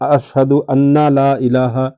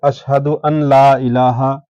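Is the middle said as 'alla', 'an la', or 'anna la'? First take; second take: anna la; an la. First: An extra 'na' syllable is added before 'la'. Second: The 'n' is kept separate before 'la'. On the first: "तो इस तरह कहना गलत है" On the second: "तो इस तरह कहना गलत है"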